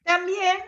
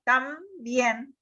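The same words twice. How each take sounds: First: Said in the usual way. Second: "También" partido en dos sílabas, con pausa tras "Tam"; por sílabas. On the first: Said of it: "es una palabra aguda porque está acentuada". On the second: Shown as a demonstration. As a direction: separa "También" en tam y bién, marcando la última. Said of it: "en la última sílaba". ("También" silabeado, tam... bién)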